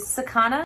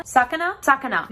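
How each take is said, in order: First: "sakana" as sa-KA-na, rising uncertainly; stress on second syllable. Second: "sakana" as SA-ka-na, higher on the start; stress on first syllable. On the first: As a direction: try "sakana" with the middle syllable stressed, questioning. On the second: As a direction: hit the first syllable of "sakana", then settle. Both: Shown as a demonstration. Tries stresses, picks one.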